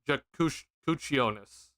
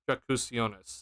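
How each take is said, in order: First: The middle consonant is a ch sound. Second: The middle consonant is an s sound. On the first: The speaker calls it right. "it's pronounced with a ch" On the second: The speaker calls it wrong. "I hope I'm saying that correctly. I probably I'm probably not"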